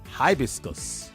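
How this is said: It is said with an American pronunciation. "The Americans call it"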